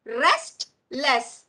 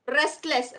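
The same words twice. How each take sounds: First: "Restless" split with a pause, Rest - less; broken into syllables. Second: Said in the usual way. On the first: Shown as a demonstration. Teacher showing how we break words, split syllables. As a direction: break "Restless" into two separate beats. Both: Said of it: "We break the words".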